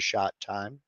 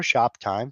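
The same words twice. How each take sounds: First: "shot time" with a t sound where the p belongs; slurred "shot time". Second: "shop time" with a clear p; corrected "shop time". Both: Shown as a demonstration. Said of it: "Shot time or shop time for those of you who can speak".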